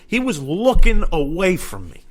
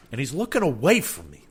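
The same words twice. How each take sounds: First: "looking" pushed higher and louder in outrage; comic indignation, louder and higher on "looking"; emphatic repeat. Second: Said in the usual way. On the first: Real, not acted.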